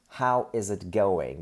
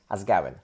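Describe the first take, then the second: First: The phrase is said slowly, each word separate. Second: The phrase is said fast, words run together.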